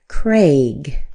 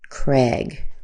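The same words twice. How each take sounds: First: The vowel is a long 'ay' sound. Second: The vowel is a short 'eh' sound. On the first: "The correct way would probably be Craig, with an A sound" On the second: "just with an E sound"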